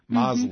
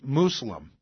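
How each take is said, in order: First: The first vowel is an 'o' sound. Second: The first vowel is a 'u' sound. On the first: This is the older pronunciation. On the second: This is the current usual pronunciation.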